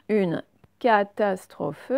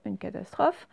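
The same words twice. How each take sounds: First: Very drawn-out careful word; slow reading aloud. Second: Said in the usual way. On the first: Shown as a demonstration. Teacher reading the word very slowly to pupils. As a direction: stretch every syllable.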